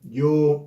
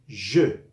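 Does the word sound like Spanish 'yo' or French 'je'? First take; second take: Spanish yo; French je. First: It starts with a Y sound and ends in O. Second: It starts with a soft ZH sound. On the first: The speaker calls it wrong. "tendemos a pronunciarlo yo" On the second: The speaker calls it right. "es sonido de la J que en francés suena un sonido igual al de la G francesa"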